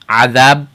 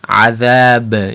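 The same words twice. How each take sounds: First: The final consonant ends without a bounce. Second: The final consonant ends with a small bounce. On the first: The speaker calls it wrong. "instead of saying" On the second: The speaker calls it right. "You hear the little bounce at the end"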